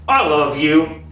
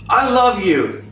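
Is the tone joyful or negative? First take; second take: negative; joyful. First: It sounds cold and negative despite the words. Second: It sounds happy and warm, with a resonant voice. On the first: The person doesn't really mean it. "The other is negative" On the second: The person sincerely means it. "I just said with happiness, with joy, with resonance in my voice"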